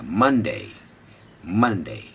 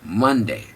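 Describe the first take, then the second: First: The correct English मंडे; correct Monday. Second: मंडे with a hard retroflex ड, the common mistake; the incorrect Indian मंडे; wrong Monday. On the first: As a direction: lift मन in मंडे and soften the ड. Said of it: "मन उठेगा". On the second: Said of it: "don't say मंडे". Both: Shown as a demonstration.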